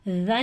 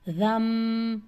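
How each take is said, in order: First: The syllable ends with a clear n sound. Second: The syllable ends with a held m sound. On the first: The speaker calls it wrong. "रन नहीं पढ़ना" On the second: The speaker calls it right. "बल्कि पढ़ना है रम, और टू count के साथ"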